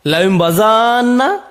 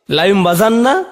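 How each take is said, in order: First: Slow বাজান্না with the final vowel held; lengthened recitation. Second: Said in the usual way. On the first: Shown as a demonstration. Teacher contrasting the three readings for students. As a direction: draw out বাজান্না slowly. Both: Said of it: "এর তিনটি কেরাত আছে".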